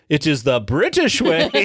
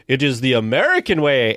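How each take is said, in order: First: Lightly imitated pompous headmaster; proud proclamation tipping into laughter; retold corrected proclamation. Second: Lightly imitated proud proclamation; a hint of pompous headmaster; Sam Eagle. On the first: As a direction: restate it firmly, leaning on BRITISH. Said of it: "whispers in your ear and he goes". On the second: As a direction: declare it firmly, leaning on AMERICAN. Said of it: "where he's like".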